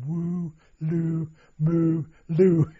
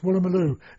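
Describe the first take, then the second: First: The word is broken into separate halting syllables. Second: The word is said smoothly as one unit. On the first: The speaker is struggling to read an unfamiliar name. "trying to pronounce it. I was going" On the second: A local says the name fluently. "And the Aussie said, it's Woolloomooloo"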